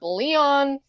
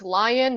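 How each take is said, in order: First: The first vowel sounds like 'lee'. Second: The first vowel sounds like 'lie'. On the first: The speaker calls it wrong. "not Leon" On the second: The speaker calls it right. "It's Lion"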